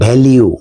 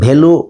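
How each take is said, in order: First: The word ends with a 'lyoo' sound. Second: The word ends with a plain 'loo' sound. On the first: The speaker calls it right. "এটার উচ্চারণ ভ্যালিউ" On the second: The speaker calls it wrong. "এটার উচ্চারণ ভ্যালু নয়"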